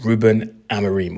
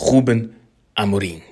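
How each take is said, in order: First: The name is pronounced with English sounds. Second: The name is pronounced with Portuguese sounds.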